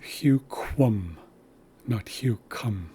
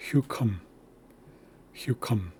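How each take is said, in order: First: Huquum with rounded kw against hucum with plain k, whispered; whispered contrast. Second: Hucum with plain k, no rounding; wrong way demo. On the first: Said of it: "this should sound like quum". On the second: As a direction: mimic the mistake hucum, hard k. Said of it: "I sometimes hear people say". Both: Shown as a demonstration.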